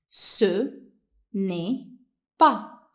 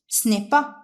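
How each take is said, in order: First: It is said at a normal, careful pace. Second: It is said a little faster.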